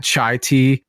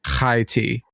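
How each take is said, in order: First: Said in the usual way. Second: "high tea" with a throaty 'kh' in place of 'ch'; scraped 'kh' opening on "high"; guttural Hebrew-style ch. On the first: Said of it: "believing that chai tea was". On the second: Shown as a demonstration. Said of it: "in fact, high tea".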